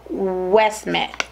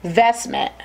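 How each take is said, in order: First: "Westmint" said slowly with an opening W sound; mispronounced name. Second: "Vestment" said with an opening V sound; corrected name. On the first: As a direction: stumble on the name, saying "Westmint" with W for V. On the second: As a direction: correct yourself, starting "Vestment" on a clear V. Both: Real, not acted. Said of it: "what is it called?".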